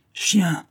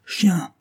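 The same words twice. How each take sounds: First: Growled insult. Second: Repeated growl. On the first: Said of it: "gronda Joy Thompson". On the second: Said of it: "répéta-t-il". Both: Acted.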